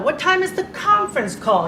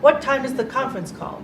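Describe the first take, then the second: First: The pitch steps up and glides back down. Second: The pitch stays flat with little movement. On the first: The speaker calls it right. "more music in your voice, more movement in your voice" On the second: The speaker calls it wrong. "It's not"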